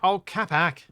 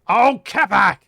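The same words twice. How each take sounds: First: It is said at a normal, quiet level. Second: It is yelled loudly.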